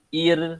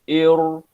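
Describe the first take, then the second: First: The r is pronounced light and thin. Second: The r is pronounced heavy and full. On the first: The speaker calls it wrong. "tu nipis" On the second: The speaker calls it right. "Cara baca tebal"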